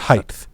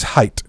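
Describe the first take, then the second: First: The word ends with a th sound. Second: The word ends with a plain t sound. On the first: The speaker calls it wrong. "not height" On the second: The speaker calls it right. "The word is height"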